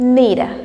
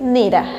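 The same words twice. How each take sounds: First: The words are blended into one reduced form. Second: The words are blended into one reduced form.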